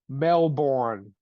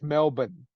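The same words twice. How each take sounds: First: It is said with an American pronunciation. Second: It is said with an Australian pronunciation. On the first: The speaker calls it wrong. "American comedians and American actors that uh" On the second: The speaker calls it right. "It's not Melbourne, it's"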